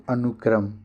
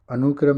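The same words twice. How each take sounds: First: अनुक्रम with a short u; teacher modelling short-u अनुक्रम; correct pronunciation. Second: अनुक्रम with the u stretched to oo; teacher showing faulty anoo-kram for अनुक्रम; wrong pronunciation. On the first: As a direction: keep अनुक्रम as anuk-kram, short second vowel. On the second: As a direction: lengthen the second vowel, anoo-kram, in अनुक्रम. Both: Shown as a demonstration. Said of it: "अनुक्रम नहीं".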